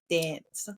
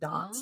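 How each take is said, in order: First: The vowel has an American-sounding quality. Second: The vowel has a British-sounding quality. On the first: This is how the speaker herself says it. "a lot of Australians here think that I sound American" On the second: This is how Australians say it. "have that British sound"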